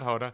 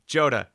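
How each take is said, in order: First: The name begins with an H sound. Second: The name begins with a J sound. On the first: The speaker calls it wrong. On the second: The speaker calls it right.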